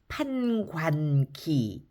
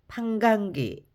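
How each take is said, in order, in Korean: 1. 둘째 음절은 n으로 끝나고, wa 소리가 분명해요. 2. 둘째 음절은 ng로 끝나고, 모음이 흐릿해요. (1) "관도 마찬가지로 니은 받침 발음 잘하셔야 되는데 관은 또 이중모음 와가 있습니다" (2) "입을 부지런히 움직여주지 않으면 대충 판강기"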